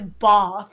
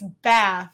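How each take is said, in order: First: The vowel is an open 'ah' sound. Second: The vowel is a front 'eh' sound. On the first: This is how other people say it. The speaker calls it wrong. "who says bath?" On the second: This is the speaker's own Southern way. The speaker calls it right. "It's bath, all right?"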